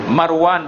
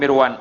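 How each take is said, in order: First: The first vowel is an open 'a' sound. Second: The first vowel is a close 'i' sound. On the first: The speaker calls it right. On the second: The speaker calls it wrong.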